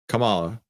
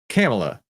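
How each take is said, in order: First: It is not said to rhyme with Pamela. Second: It is said to rhyme with Pamela. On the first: The speaker calls it wrong. "it's not Kamala" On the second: The speaker calls it right. "It's Kamala"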